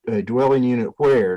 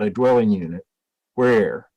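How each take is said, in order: First: It flows straight on with no pause. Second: There is a pause after 'unit'.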